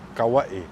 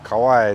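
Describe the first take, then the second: First: The name is said the native Hawaiian way. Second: The name is said the anglicized way. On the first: The speaker calls it right. "they all say Kauai" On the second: The speaker calls it wrong. "we all said Kauai"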